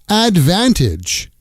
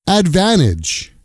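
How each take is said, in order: Both takes have the same delivery.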